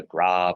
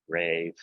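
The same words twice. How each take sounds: First: "grave" said the French way, grahv; French pronunciation. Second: "grave" said the English way, grayv; long AY vowel in "grave"; English pronunciation. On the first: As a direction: open ah vowel in "grave". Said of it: "pronounce it like French". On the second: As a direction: say "grave" to rhyme with "wave". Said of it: "depending on if you wanna pronounce it". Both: Shown as a demonstration.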